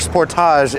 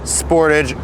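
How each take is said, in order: First: The name is said the overseas way. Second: The name is said the usual American way.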